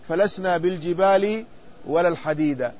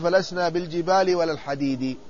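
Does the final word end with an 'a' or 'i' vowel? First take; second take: a; i. First: The last word ends with an 'a' vowel. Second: The last word ends with an 'i' vowel. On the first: The noun follows the place of the earlier word, not its form. The speaker calls it wrong. "هذه الرواية غير صحيحة" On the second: The noun takes the genitive case. The speaker calls it right. "وصواب الرواية"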